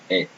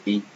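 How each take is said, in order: First: "E" said as open "eh"; "E" with the open vowel of "bet"; open French E. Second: "E" said as closed "ay" without glide; "E" with a tense é sound; closed French E. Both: Shown as a demonstration. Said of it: "If it's like this".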